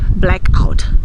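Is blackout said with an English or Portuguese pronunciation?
English. It is said with English pronunciation. "Nós não vamos dizer"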